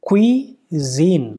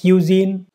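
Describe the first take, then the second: First: The first syllable sounds like kwee. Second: The first syllable sounds like kyoo. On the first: The speaker calls it right. "इसका correct pronunciation क्या है?" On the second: The speaker calls it wrong. "तो फिर गलत हो जाएगा"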